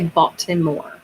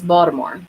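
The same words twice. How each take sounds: First: The middle T is pronounced as a crisp T. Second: The middle T sounds soft, like a D. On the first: This is how outsiders think it is said. The speaker calls it wrong. "we don't say Baltimore" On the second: This is how locals actually say it. The speaker calls it right. "it's Baltimore. It's like a D"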